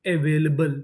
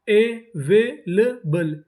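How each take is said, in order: First: Said in the usual way. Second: available very slow as अ, वे, ले, बल; syllable by syllable. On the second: Shown as a demonstration. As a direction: sound out available with gaps between syllables. Teacher sounding out new word.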